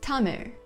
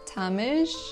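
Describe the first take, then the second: First: The last sound is a curled, r-like sound. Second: The last sound is a hissing, sh-like sound. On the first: The speaker calls it right. "so it's actually pronounced as Tamir" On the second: The speaker calls it wrong. "tried to read it as"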